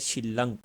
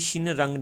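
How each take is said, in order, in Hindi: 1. बीच को double l की तरह बोला जाता है। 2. बीच को n के बाद r की तरह बोला जाता है। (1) "ये बोला जाएगा शिलंग" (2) "ये शिन रंग नहीं बोला जाएगा"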